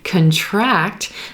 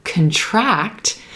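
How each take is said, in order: First: The stress is on the second syllable. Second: The stress is on the second syllable.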